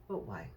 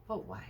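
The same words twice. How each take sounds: First: Dropped low, puzzled but why; low questioning. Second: Said in the usual way. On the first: Real, not acted. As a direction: ask it again, much lower. Repeats question, second time lower.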